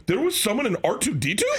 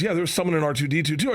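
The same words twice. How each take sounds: First: Retold amazement, higher and rising; astonished, high-pitched disbelief; incredulous question. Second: Said in the usual way. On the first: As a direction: question it like your mind is blown. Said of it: "Are you serious?". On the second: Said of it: "And he goes".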